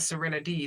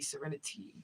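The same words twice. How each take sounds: First: The t is softened into a d sound. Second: The t is said as a clear t. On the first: The speaker calls it wrong. "my name is not Serenity. There's no D in my name" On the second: The speaker calls it right. "It's a T"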